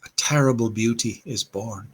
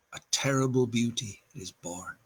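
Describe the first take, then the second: First: Said in the usual way. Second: Much softer, letting the last refrain fade away; hushed closing line. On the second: Acted. Reading the poem's last refrain to listeners, softly hushed. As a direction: drop the voice to almost nothing on the final line.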